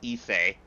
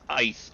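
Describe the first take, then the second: First: It is said as two syllables, 'ee-seh'. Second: It is said as one syllable, like 'ice'. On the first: The speaker calls it right. "no, no, it's Issei" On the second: The speaker calls it wrong. "people mispronounce it as ice"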